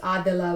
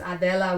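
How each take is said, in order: First: The name is pronounced the family's home way. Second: The name is pronounced the Spanish way. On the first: "which is the way my parents say it" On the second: "which is the Spanish version"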